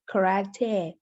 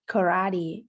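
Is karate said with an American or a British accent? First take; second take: British; American. First: It is said with a British accent. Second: It is said with an American accent. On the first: "a British would say karate" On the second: "An American or an Australian would say it like karate"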